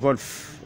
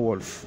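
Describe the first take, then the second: First: The name begins with a V sound. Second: The name begins with a W sound. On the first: The speaker calls it right. "en allemand, le W se prononce V" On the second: The speaker calls it wrong. "et non Wolf"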